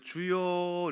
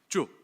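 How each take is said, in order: First: The word is drawn out long. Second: The word is cut short.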